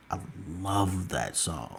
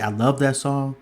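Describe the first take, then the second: First: LOVE drawn out very slowly, lower in volume; emphatic LOVE. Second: Said in the usual way. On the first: Real, not acted. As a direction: stretch the word "love" long and heartfelt. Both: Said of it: "when I say I love that song".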